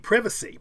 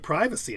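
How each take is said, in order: First: The first vowel is short. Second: The first vowel is long. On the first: "So it should be privacy" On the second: "we say privacy in most cases in America"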